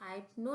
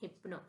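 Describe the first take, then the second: First: The first vowel is a long 'eye' sound. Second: The first vowel is a short 'i' sound. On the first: The speaker calls it wrong. "नहीं पढ़ेंगे हम इसे" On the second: The speaker calls it right. "इसको हम पढ़ते हैं हिप्नो"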